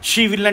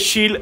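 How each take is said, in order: First: Both words are said in full. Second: The two words merge into one syllable.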